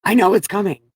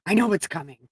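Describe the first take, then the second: First: I know it's coming said louder, almost cried out; emotional outburst. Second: Said in the usual way. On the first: Real, not acted. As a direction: burst out with it as emotion breaks through.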